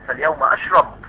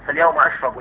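First: The verb ends without a final vowel. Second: The verb ends with a short u vowel. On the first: "رواية الاصمعي ... السكون" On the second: "وان كان يروى بالرفع ايضا"

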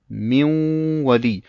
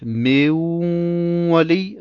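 First: The vowel after the m is short. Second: The vowel after the m is lengthened. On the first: The speaker calls it right. "sondern direkt Miwali" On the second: The speaker calls it wrong. "Das heißt also nicht Miwali"

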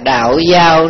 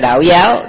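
First: The second word has a level tone. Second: The second word has a rising tone. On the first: The speaker calls it right. "Chữ giao" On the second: The speaker calls it wrong. "chứ không phải là đạo giáo"

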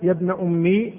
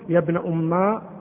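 First: The last word ends in a long i vowel. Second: The last word ends in a long a vowel. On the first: "بالياء" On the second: "بالألف"

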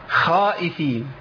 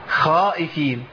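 Both takes have the same delivery.

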